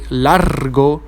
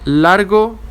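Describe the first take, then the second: First: The R before the consonant is strongly trilled. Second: The R before the consonant is a soft tap. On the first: The speaker calls it wrong. "we don't say largo" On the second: The speaker calls it right. "it's soft"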